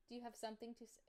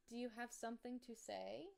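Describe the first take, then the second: First: High, soft teasing to a pet; talking to the dog. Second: High, playful voice for the dog; talking to the dog. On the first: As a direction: ask the dog lightly, a bit softer. Repeats question to dog. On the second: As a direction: tease the dog in a sing-song voice. Talking to her dog Barkley. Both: Real, not acted.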